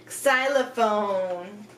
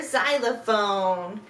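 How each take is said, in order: First: "xylophone" begun with a "ks" sound; slow "xylophone" with k clicked before the s; ks-start xylophone. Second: "xylophone" begun with a z sound; plain-start xylophone. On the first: Teacher linking X to its word, ks-start "xylophone". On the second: Teacher giving an X example word, z-start "xylophone". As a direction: stretch "xylophone" slowly, starting on z. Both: Shown as a demonstration. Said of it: "X makes a X sound".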